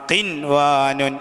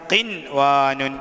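No difference in how they are said.

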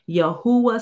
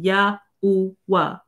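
First: The syllables run smoothly together. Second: Each syllable is clearly separated. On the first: "Some people put it all together like I do" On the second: "Some people actually enunciate it"

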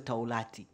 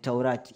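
First: The middle consonant is an L sound. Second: The middle consonant is an R sound. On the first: The speaker calls it wrong. "Sio Taulati" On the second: The speaker calls it right. "ni Taurati"

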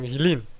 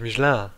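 First: The name is pronounced in a German way. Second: The name is pronounced in a French way. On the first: This is how Germans usually say it. The speaker calls it wrong. "Die Deutschen sagen Michelin" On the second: This is the original pronunciation of the name. The speaker calls it right. "da ist aber eigentlich Michelin"

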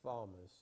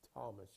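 First: The name begins with a th sound. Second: The name begins with a plain t sound. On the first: The speaker calls it wrong. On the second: The speaker calls it right.

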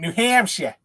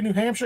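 First: It is said in a Boston accent. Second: It is said in a standard accent.

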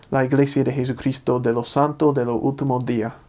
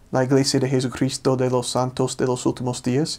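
First: The final S sounds are aspirated or dropped. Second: The final S sounds are fully pronounced.

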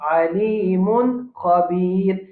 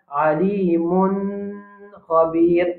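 First: The n is clear with no nasal hold. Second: The n is held with a nasal sound. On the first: The speaker calls it right. "nous prenons tanwin là correctement sans qu'il nous fasse runna" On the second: The speaker calls it wrong. "nous pas tini le tanwin là"

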